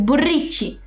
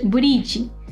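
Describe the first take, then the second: First: The R sound is strong and hard. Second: The R sound is soft and light. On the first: The speaker calls it wrong. "No es brichi" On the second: The speaker calls it right. "La R en japonés es un sonido suave"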